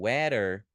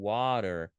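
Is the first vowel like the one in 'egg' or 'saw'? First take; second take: egg; saw. First: The first vowel is a short 'e' sound. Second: The first vowel is an open 'aw' sound. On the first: The speaker calls it wrong. "será que eu falo weather? Não" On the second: The speaker calls it right. "eu falo water"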